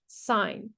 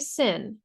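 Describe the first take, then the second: First: It has a long vowel, like 'sign'. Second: It has a short vowel, like 'sin'. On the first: The speaker calls it right. "that is pronounced sine" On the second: The speaker calls it wrong. "We don't say sin"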